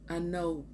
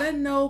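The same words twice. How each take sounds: First: The voice falls, sounding final. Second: The voice stays up, sounding unfinished.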